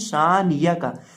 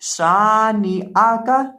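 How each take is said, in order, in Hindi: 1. य की ध्वनि ग्लॉटल स्टॉप की जगह लेती है। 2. बीच में ग्लॉटल स्टॉप का उच्चारण होता है। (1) "हमजा को या से बदल के पढ़ देते हैं" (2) "पढ़ेंगे"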